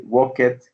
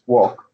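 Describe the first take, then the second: First: The ending is an extra 'id' syllable. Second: The ending is a short 't' sound. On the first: The speaker calls it wrong. "you cannot say walk it" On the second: The speaker calls it right. "it's like a T after the K"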